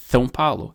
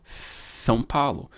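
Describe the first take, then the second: First: São Paulo with the s as a th sound; lisped São Paulo. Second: São Paulo slowly, the s as a th; slow lisped São Paulo. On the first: Teacher showing a lisped São Paulo. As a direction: lisp São Paulo, tongue pushed forward. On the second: Teacher repeating the lisp slowly. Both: Shown as a demonstration. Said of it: "É assim que a gente falaria com língua presa".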